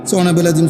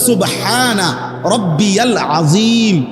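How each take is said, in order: First: The middle word is clipped short to 'bil'. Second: The middle word is said in full as 'rabbiyal'. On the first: The speaker calls it wrong. "আমনে কোন সুবহানা বিল আযীম" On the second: The speaker calls it right. "শব্দ হইল"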